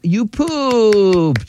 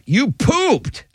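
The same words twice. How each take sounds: First: It is said in a happy tone. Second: It is said in an upset tone.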